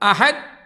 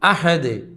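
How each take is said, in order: First: The final d stops flat without resonance. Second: The final d rings out with full resonance. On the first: The speaker calls it wrong. "അഹദ് പോരാ" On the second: The speaker calls it right. "ദാലിന്റെ ശബ്ദം പൂർണ്ണമായി മുഴക്കത്തോടെ കേൾക്കുക"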